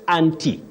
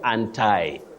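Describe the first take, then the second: First: It is said in a standard British accent. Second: It is said in an American accent. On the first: "in what we call received pronunciation" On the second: "in American English and some of the fashionable soundings"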